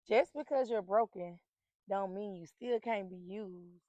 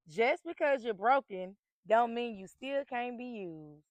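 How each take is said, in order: First: It is said at normal volume. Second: It is said more loudly.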